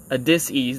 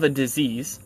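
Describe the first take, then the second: First: "dis-ease" as two parts, dis then ease, with an s sound; split pronunciation. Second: Said in the usual way. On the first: Shown as a demonstration. Speaker exposing hidden meaning, "dis-ease" split into dis and ease. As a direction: break "dis-ease" into dis plus ease.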